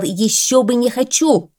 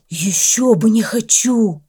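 First: Higher and louder, sternly repeating the dog's words; «Ещё бы не хочу!» repeated sternly with stress on хочу; stern quote. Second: Slow, higher, grinning dog voice with a falling close; the dog beams, all eager: ещё бы не хочу; «Ещё бы не хочу!» drawn out slowly and grinning; beaming dog. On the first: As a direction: throw his own words back at him, severely. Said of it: "сурово посмотрел на него Белый". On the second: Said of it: "расплылся в улыбке пёс". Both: A narrator's reading.

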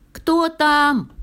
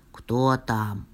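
First: Very high, loud squeaky question; tiny high donkey voice; thin little voice. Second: Low bear voice; low-pitched storybook "who's there"; bear at the door. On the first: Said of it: "тоненько спросил ослик". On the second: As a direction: ask low, as the little bear. Bear answers knock in low voice. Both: A narrator's reading.

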